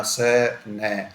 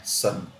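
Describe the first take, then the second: First: स, न as two separate sounds with a gap; split-up sounds. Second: सन joined up in a single beat; said as one syllable. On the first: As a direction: break the word into स and न. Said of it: "उसको ये मत बोलना". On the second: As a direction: say सन whole, without a break. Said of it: "सन बोला जाता है". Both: Shown as a demonstration.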